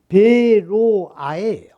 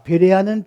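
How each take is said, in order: First: The middle vowel sounds like 'oh'. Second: The middle vowel sounds like 'eh'. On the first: The speaker calls it right. "히브리어로 베로아" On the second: The speaker calls it wrong. "베레아는 발음이 잘못됐습니다"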